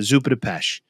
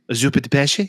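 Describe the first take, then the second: First: It is said with an American Italian accent. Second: It is said with an Italian accent.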